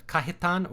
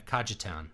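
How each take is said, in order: First: Cajetan as "KAH-hee-tahn"; pronounced with H. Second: Cajetan as "KAH-juh-town"; pronounced with English J. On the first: Streamer unsure of a donor's name, Cajetan said "KAH-hee-tahn". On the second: Streamer offering a second guess at a name, Cajetan said "KAH-juh-town". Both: Shown as a demonstration. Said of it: "I don't know if it's".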